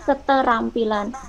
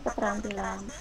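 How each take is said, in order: First: A vowel separates the t and r sounds. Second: The t and r form one consonant cluster. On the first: The speaker calls it right. "tidak mengenal klaster" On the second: The speaker calls it wrong.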